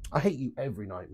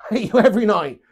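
First: Said in the usual way. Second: Louder, laughing repeat of the joke; laughing tease. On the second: Shown as a demonstration. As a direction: tease him through a laugh. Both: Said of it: "why you put an emphasis on tonight".

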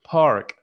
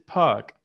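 First: Park with the r sounded, American style; American English park, r kept; American pronunciation. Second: Park as pahk with no r, British style; British English park, r dropped; British pronunciation. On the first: Teacher showing the class, American English park. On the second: Teacher contrasting for the class, British English park. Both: Shown as a demonstration. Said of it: "in American and in British".

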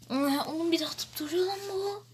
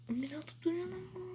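First: Said in the usual way. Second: Fast, much softer whisper. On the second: Real, not acted. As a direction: whisper the same complaint quickly. Repeats the complaint whispered.

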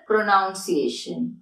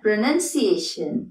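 First: "പ്രൊനൗൺസിയേഷൻ" with NOUN as the second syllable; common mispronunciation. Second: "പ്രൊനൗൺസിയേഷൻ" with NUN, not noun, as the second syllable; correct pronunciation. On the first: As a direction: say "പ്രൊനൗൺസിയേഷൻ" slowly as pro-noun-see-AY-shun. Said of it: "അത് തെറ്റാണ്". ("പ്രൊനൗൺസിയേഷൻ" തെറ്റായി "നൗൺ" എന്ന് പതുക്കെ) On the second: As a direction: say "പ്രൊനൗൺസിയേഷൻ" slowly as pro-nun-see-AY-shun. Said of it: "correct എങ്ങനെയാണ്?". ("പ്രൊനൗൺസിയേഷൻ" ശരിയായി "നൻ" എന്ന് പതുക്കെ) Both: Shown as a demonstration.

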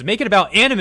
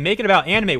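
First: "anime" pushed high and loud with a rising end; "anime" punched up in a heated rant; worked-up stress on anime. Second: "about" hit hard and high with a falling end; "about" stressed in a heated rant; worked-up stress on about. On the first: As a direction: land hard and rising on "anime". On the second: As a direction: lean on "about", then let it drop. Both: Real, not acted. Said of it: "And I'm getting worked up".

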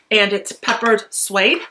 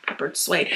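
First: Said in the usual way. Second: Whispered "Peppered Suede", soft and breathy; whispering. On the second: Shown as a demonstration. Repeats the name in a whisper.

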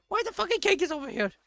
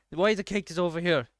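First: Very high, fast squealed question; high-pitched rapid outburst; exasperated squeal. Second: Said in the usual way. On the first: Real, not acted. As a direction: squeal it in disbelief.

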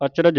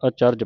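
First: ਅਚਰਜ with a vowel before the final j; wrong reading demo. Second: ਅਚਰਜ with r and j joined; correct reading demo. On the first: Teacher showing what not to read, ਅਚਰਜ as "ach-raj". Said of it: "ਇਹਨੂੰ ਅਚਰਜ ਨਹੀਂ ਪੜ੍ਹਨਾ". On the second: Teacher showing the right reading, ਅਚਰਜ as "a-charj". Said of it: "ਅਚਰਜ ਪੜ੍ਹਨਾ ਹੈ". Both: Shown as a demonstration.

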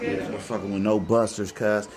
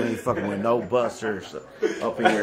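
First: Laid-back West Coast accent. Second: Said in the usual way. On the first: Shown as a demonstration. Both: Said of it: "that's my West Coast accent".

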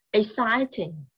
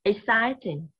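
First: Exciting said slowly as ex-CI-ting, three clear syllables; teacher sounding out Exciting; modelling the word. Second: Exciting again, ex-CI-ting, each syllable clear; teacher repeats Exciting for the class; repeated model. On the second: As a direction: say Exciting once more for repeating. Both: Shown as a demonstration. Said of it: "teacher models word".

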